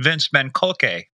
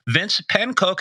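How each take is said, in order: First: The surname is said with a German pronunciation. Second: The surname is said with an English pronunciation.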